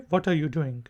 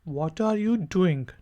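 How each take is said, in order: First: It is said quickly and fluently, run together. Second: It is said at a normal, careful pace.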